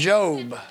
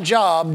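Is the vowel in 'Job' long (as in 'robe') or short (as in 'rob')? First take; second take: long; short. First: The vowel is long, rhyming with robe. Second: The vowel is short, like the common word job. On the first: This is the name of the book. The speaker calls it right. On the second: This is the everyday word for work. The speaker calls it wrong. "Not Job"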